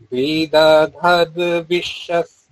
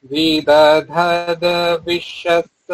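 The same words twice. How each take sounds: Both takes have the same delivery.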